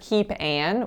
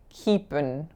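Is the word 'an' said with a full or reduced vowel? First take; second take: full; reduced. First: The word 'an' keeps its full, tense vowel. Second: The word 'an' shrinks to a quick schwa. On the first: The speaker calls it wrong. "a lack of reduction on the word an" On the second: The speaker calls it right. "the an really becomes a schwa n"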